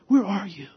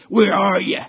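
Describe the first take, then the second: First: The voice sounds heartbroken and pleading. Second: The voice sounds angry and threatening. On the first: The caller lovingly wants the lost one back. The speaker calls it right. "read it like a broken-hearted dad, passionately seeking a wayward child" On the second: The caller wants revenge. The speaker calls it wrong. "not with the voice of an angry mobster banging on the door, seeking revenge"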